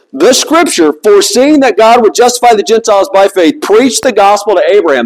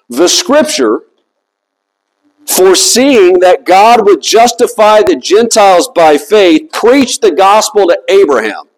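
First: Said in the usual way. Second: Deliberate reading with long pauses; slow reading. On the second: Shown as a demonstration. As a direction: read it slowly, letting each phrase stand. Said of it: "I'm gonna read this slowly".

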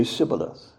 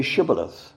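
First: SIBBOLETH with "s" replacing the "sh"; mispronounced s sound. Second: SHIBBOLETH with a clear opening "sh"; correct sh pronunciation. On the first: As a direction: say "Sibboleth" with a plain s at the start. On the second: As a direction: say "Shibboleth" with a hushing first sound. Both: Acted. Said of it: "he could not pronounce it right".

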